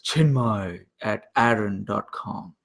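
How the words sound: It is said in a put-on deep voice. The speaker calls it right.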